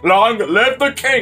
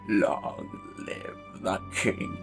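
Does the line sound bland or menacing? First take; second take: bland; menacing. First: It is said in a flat, cheesy way. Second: It is said in a scary, menacing way.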